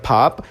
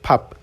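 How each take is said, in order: First: The word is read slowly with a long vowel. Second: The word is read quickly with a short vowel. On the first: "जब हम इसे आराम से पढ़ेंगे" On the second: "जब तेज़ी से पढ़ेंगे"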